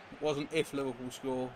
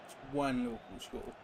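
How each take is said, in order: First: If Liverpool score, leaning on the word if; stress on if. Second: When Liverpool score, leaning on the word when; stress on when. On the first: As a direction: hit the word if, not when. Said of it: "I like that, [name]". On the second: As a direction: punch the word when, not if. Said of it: "I like the when Liverpool score, not if". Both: Shown as a demonstration.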